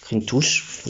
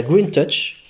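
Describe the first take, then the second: First: "Green Touch" said the French way, rolled r, "touche"; Frenchify "Green Touch", soft r and "ouch" vowel; brand name read with a French accent. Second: Said in the usual way. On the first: Shown as a demonstration. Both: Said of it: "avec l'accent français".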